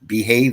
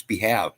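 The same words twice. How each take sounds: First: Said in the usual way. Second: "behave" said as two words, "be" and "have"; two separate words. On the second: Shown as a demonstration. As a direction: split "behave" so the second part sounds like the verb "have". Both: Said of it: "Pronounce them separately".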